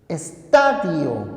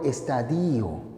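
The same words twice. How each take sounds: First: The stress is on the second-to-last syllable. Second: The stress is not on the second-to-last syllable. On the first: The speaker calls it right. "palabra grave" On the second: The speaker calls it wrong. "no es correcto estadio, ese término no existe"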